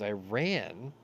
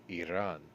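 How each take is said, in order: First: It sounds like the English words 'I ran'. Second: It does not sound like 'I ran'. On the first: The speaker calls it wrong. "I ran so far away" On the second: The speaker calls it right. "let me do it correctly"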